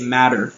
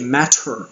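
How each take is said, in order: First: The middle consonant sounds like a d. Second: The middle consonant is a clear t. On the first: The speaker calls it right. "We say matter, like a D" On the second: The speaker calls it wrong. "we don't say matter"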